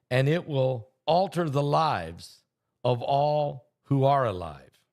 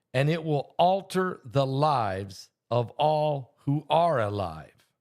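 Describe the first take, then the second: The two takes are said the same way.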